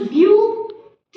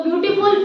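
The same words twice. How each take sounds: First: ब्यूटीफुल in three separate beats, ब्यू-टी-फुल; split into syllables. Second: Said in the usual way. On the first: Shown as a demonstration. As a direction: break ब्यूटीफुल slowly into ब्यू, टी, फुल with clear gaps. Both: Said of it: "three syllable हो गए".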